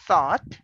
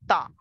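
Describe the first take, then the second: First: The word is pronounced in a careful, deliberate way. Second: The word is pronounced in a relaxed, fluent way. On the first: The speaker calls it wrong. "you normally don't say thought" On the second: The speaker calls it right. "when you are speaking naturally, ... but say thought"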